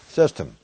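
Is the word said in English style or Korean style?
English. It is stressed first with a reduced final syllable. "영어식으로 발음을 드린다면 시스템"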